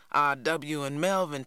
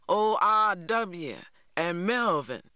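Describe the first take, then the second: First: Said in the usual way. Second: Put-on slow, drawn-out old R W and Melvin, each name savoured; names rolled slowly. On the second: A narrator's reading. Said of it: "rolling the Simses' names slowly off his tongue".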